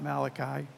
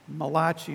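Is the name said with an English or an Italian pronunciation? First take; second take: English; Italian. First: The name is said with an ordinary English pronunciation. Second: The name is said with an Italian-style pronunciation. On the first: "not Malachi" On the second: "he's an Italian prophet"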